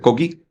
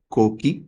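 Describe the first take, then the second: First: The word is said quickly without a break. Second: The word is said slowly with a pause. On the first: This is the call of the common coastal frog. "lo dice más rápido" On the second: This is the call of the mountain frog. "lo dice más lento"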